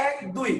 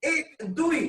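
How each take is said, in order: First: "এক" as "æk", with open æ; natural open vowel. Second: "এক" as "ek", with a close e; slow count with "এক" pronounced ek; wrong close vowel. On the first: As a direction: say "এক" with the vowel of "cat". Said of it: "উচ্চারণ কিন্তু আপনি এক করেন না". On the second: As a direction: say "এক" with e as written, before "দুই". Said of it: "এখন দেখেন আপনি কি বলেন". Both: Shown as a demonstration.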